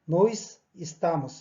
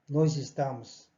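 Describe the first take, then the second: First: The final s of nós sounds like s. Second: The final s of nós sounds like z. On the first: The speaker calls it wrong. "이렇게 발음이 안 됩니다" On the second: The speaker calls it right. "일반적으로 대화를 할 때는 nós estamos 이렇게 발음이 됩니다"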